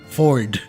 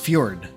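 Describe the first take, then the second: First: No 'y' sound follows the 'f'. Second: A 'y' sound follows the 'f'. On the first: This is how one player said the name. "He pronounced the f- the name Ford, not Fjord" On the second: This is the original Nordic form of the name. "it's actually pronounced Fjord because of the J is being pronounced as a Y"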